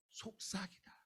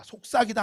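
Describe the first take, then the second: First: Barely audible hush; whispering. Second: Said in the usual way. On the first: Shown as a demonstration. Preacher repeats the meaning for the congregation, whispering. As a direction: say 속삭이다 very softly, as if whispering it. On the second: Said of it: "뭐 한다고요?".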